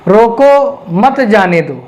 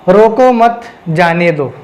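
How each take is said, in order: First: There is a pause after the word 'roko'. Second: There is a pause after the word 'mat'. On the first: Stop the person; do not let them go. "यहाँ रोको पर ठहरा हूँ" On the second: Do not stop the person; let them go. "मैं यहाँ पर रोको मत के पास में ठहर रहा हूँ, मत के बाद ठहर रहा हूँ"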